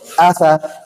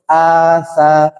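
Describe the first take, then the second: First: The vowel is short, one beat long. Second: The vowel is lengthened into a long sound. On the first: The speaker calls it right. "Harusnya bacanya asa" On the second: The speaker calls it wrong. "nggak boleh ... Menjadi huruf mat"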